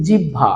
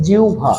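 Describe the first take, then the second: First: জিহ্বা with no "u" glide, "jibba"; common mispronunciation. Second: জিহ্বা with "u" before a breathed bh; correct pronunciation. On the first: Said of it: "এটার উচ্চারণ জিহ্বা বা জিহ্বা না". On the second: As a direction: say জিহ্বা as "jiubha", with iu glide. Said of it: "এটার উচ্চারণটা হবে". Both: Shown as a demonstration.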